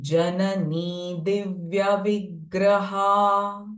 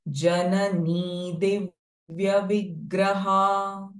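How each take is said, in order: The two takes are said the same way.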